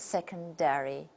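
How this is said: It is said with an American accent. "the second version takes the American model"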